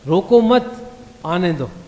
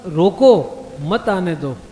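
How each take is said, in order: First: There is a pause after 'मत'. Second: There is a pause after 'रोको'.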